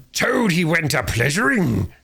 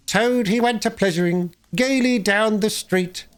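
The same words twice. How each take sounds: First: Slow, high, savage yell of the song; furious yell. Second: High, squeaky sing-song, slowing at the end. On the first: Toad charging the Chief Weasel, yelling his song back. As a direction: throw their song back at them. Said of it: "he yelled". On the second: Chief Weasel singing his mocking song, high and squeaky. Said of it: "began in a high squeaky voice". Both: Acted.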